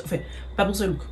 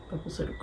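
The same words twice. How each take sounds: First: Said in the usual way. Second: A breathy murmur to herself; whispered aside. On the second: Real, not acted. Vlogger muttering her verdict again to herself, whispered. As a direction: repeat it under your breath, voiceless. Restates her opinion, then echoes it.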